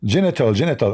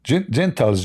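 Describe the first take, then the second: First: Genital said JEN-i-tal, three syllables; landing on Genital, stress on the first syllable; corrected word. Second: Stumbling over Gentiles, zh-sound first; mispronounced word. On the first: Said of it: "Oh, correct, correct". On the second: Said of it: "I'm saying the word wrong". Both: Shown as a demonstration.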